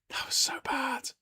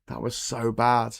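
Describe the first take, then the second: First: Breathless high whisper of "That was so bad"; hushed whispered repeat. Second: Said in the usual way. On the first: Shown as a demonstration.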